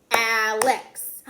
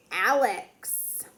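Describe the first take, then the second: First: "Alex" in two loud, separate beats; "Alex" broken firmly into its two syllables; clapped syllables. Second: Said in the usual way. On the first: Shown as a demonstration. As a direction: clap out "Alex", one beat per syllable. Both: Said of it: "Two syllables".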